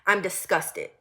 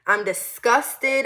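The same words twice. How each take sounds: First: Said in the usual way. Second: "disgusted" stretched out slowly and louder; slow emphatic disgust. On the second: Shown as a demonstration.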